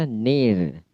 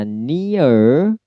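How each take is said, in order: First: Near slow with a strong R; American near, slow, R at the end. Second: Near slow, gliding ee-uh, no R; British near, slow and clear. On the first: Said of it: "satunya near". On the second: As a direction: draw near out with a British diphthong. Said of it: "Satunya near". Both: Shown as a demonstration.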